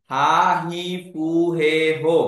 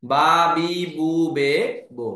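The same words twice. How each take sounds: First: "হা, হি, ফু, হে, হো" with airy h and f; H series pronunciation. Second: "বা, বি, বু, বে, বো" with voiced lip b sound; voiced B series. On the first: Teacher recalls the old pronunciation for learners, H syllables. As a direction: say "হা, হি, ফু, হে, হো", each starting on a breath sound. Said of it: "আগে উচ্চারণ হতো হ এর মতো". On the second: Teacher shows learners the new pronunciation, voiced B syllables. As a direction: say "বা, বি, বু, বে, বো", each starting on b. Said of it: "এখন হয়ে যাবে ব এর মতো". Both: Shown as a demonstration.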